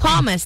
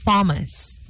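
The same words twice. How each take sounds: First: It begins with a plain T sound. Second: It begins with a th sound. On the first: The speaker calls it right. "The H there is silent" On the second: The speaker calls it wrong. "not Thomas"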